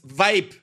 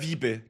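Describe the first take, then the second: First: The word has an 'eye' vowel and a 'v' sound. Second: The word has an 'ee' vowel and a 'v' sound. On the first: The speaker calls it right. "Das ist Vibe" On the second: The speaker calls it wrong. "Jetzt sagt er Wiebe"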